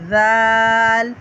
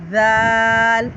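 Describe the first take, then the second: First: The first consonant is soft, tongue between teeth. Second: The first consonant is soft, tongue between teeth.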